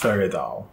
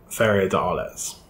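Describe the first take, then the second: First: The de is elided and joined onto Arles. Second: The word de is a separate full syllable. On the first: The speaker calls it right. "A slightly more accurate pronunciation" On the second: The speaker calls it wrong. "which is wrong"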